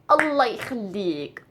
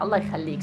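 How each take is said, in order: First: It is said in a begging, pleading tone. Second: It is said in a warm, thankful tone. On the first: Please. "If I am saying please, please, but it will change the tone" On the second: Thank you. "So it's just like شكرا"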